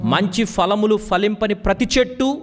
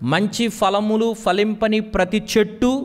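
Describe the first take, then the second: The two takes are said the same way.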